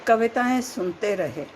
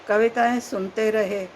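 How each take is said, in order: No difference in how they are said.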